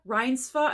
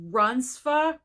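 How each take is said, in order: First: Reinsva said with "Rhines" as first syllable, higher, rising; unsure second pronunciation. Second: Reinsva said with "runs" as first syllable; first try at pronunciation. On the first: Correcting a nominee's name, Reinsva as rising "RHINES-fuh". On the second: Trying a nominee's name, Reinsva pronounced "RUNS-fuh". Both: Real, not acted. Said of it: "am I saying it correctly".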